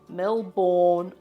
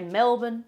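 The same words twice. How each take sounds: First: It is pronounced in a non-Australian way. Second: It is pronounced in the Australian way. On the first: The speaker calls it wrong. "don't say" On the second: The speaker calls it right. "We say"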